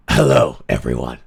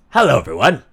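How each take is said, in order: First: Very deep, low greeting; throat-cleared deep male hello. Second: Said in the usual way. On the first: Shown as a demonstration. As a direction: drop right down into a deep register. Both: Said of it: "I need my male body".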